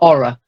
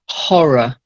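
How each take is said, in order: First: The word begins with a vowel, no H. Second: The word begins with an audible H sound. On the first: The speaker calls it wrong. "not aura" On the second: The speaker calls it right. "voiced H"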